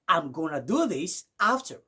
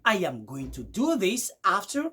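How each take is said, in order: First: The words are contracted and run together. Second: Every word is pronounced fully and separately. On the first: "vous allez écouter du genre" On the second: "Au lieu de dire"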